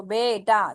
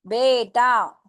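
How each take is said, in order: First: बेटा repeated with a clear e sound; बेटा with e, calmly confirmed; correct बेटा. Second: बेटा with a clear e, not बीटा; बेटा as e, never ee; correct बेटा. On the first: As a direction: say बेटा with e, not ee. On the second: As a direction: say बेटा with e in the first syllable. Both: Shown as a demonstration. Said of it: "बीटा नहीं पढ़ेंगे इसको".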